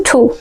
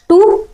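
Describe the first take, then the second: First: टू with a puffed, "ch"-like t; aspirated TWO. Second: Said in the usual way. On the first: Shown as a demonstration. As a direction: say टू as "chhoo". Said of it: "क्या पढ़ना?". (टू को "छू" जैसा बोलें) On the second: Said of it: "टू नहीं पढ़ना है".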